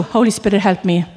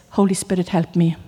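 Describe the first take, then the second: First: Said in the usual way. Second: Quiet plea. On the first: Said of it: "that's all you gotta do". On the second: Shown as a demonstration. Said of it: "the best prayer you can ever pray".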